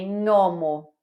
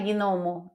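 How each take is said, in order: First: It starts with a single ny sound. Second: It starts with a separate hard g before n. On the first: The speaker calls it right. "Em italiano é gnomo" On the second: The speaker calls it wrong. "não é gnomo, igual a gente fala em português"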